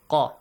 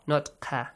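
First: The consonant is heavy, with a full deep sound. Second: The consonant is light, with a thin sound. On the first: The speaker calls it right. "Pronounce them with a heavy sound" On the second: The speaker calls it wrong.

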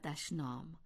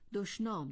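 First: The first vowel is not an o sound. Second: The first vowel is an o sound. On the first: The speaker calls it wrong. "نه دشنام" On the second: The speaker calls it right. "دشنام درست است"

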